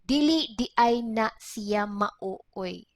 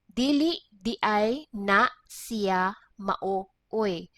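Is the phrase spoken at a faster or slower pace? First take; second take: faster; slower. First: The phrase is spoken at normal conversational speed. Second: The phrase is spoken slowly and deliberately.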